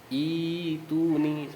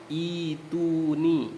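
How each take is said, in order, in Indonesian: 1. Dimulai dengan vokal panjang ee. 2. Dimulai dengan vokal panjang ee.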